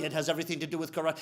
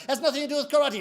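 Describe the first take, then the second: First: Low, soft, fast rebuttal; unmoved master, quick and low; sensei. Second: High, insistent contradiction; complaining student. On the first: Sensei contradicting his student, low quick reply. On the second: Student arguing with his sensei, high insistent protest. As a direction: protest back, pitched up. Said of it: "he complains to Sensei". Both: Acted.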